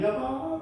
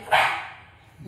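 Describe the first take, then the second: First: It is said in a pleasant, happy tone. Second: It is said in a harsh, irritated tone.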